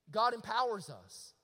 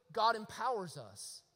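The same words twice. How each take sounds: The two takes are said the same way.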